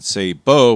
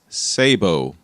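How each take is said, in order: First: The stress is on the second syllable. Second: The stress is on the first syllable. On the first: "with an accent on the second syllable" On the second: "the pronunciation that I use"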